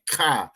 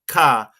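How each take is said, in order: First: The first sound scrapes at the back of the throat. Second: The first sound is a plain, clean k. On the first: The speaker calls it right. "over exaggerate kind of when I'm saying ka" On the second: The speaker calls it wrong. "you don't want it to sound like ka"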